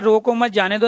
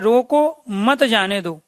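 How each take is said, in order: First: The pause falls after the word 'mat'. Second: The pause falls after the word 'roko'. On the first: Let it go; do not hold it back. "इसको छोड़ दो, जाने दो।" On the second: Hold on to it; do not let it go. "पकड़ के रखो, छोड़ना नहीं है।"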